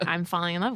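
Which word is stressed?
love. The contracted form is used with stress on love. It is a natural, spontaneous statement. The speaker calls it right. "You'd say"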